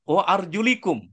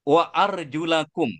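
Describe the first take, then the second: First: The vowel after the L is an 'i'. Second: The vowel after the L is an 'a'. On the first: "dengan huruf lam di kasroh" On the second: "dengan huruf lam berharkat fathah"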